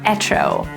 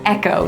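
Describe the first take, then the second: First: The middle consonant is a ch sound. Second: The middle consonant is a hard k sound. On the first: The speaker calls it wrong. "not echo" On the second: The speaker calls it right. "we say echo"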